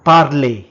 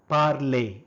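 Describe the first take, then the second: First: First take, projected clearly for the class; loud model word. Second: Said in the usual way. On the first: Shown as a demonstration. Teacher modelling a French word for learners, loud and clear. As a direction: call out the French word loudly. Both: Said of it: "in French is called".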